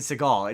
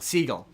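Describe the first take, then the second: First: The name sounds like the surname Seagal. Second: The name sounds like the bird seagull. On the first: The speaker calls it wrong. "not Seagal like Steven Seagal" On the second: The speaker calls it right. "as in the animal"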